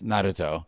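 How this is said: The name is pronounced the Japanese way. "in Japanese it's"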